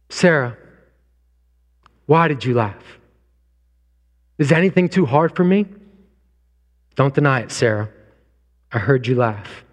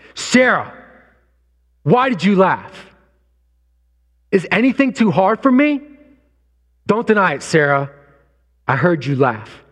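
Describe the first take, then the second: First: It is said in a gentle tone. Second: It is said in an angry tone.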